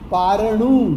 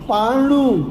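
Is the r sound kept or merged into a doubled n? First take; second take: kept; merged. First: The r is pronounced before the n. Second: The r drops and the n is doubled.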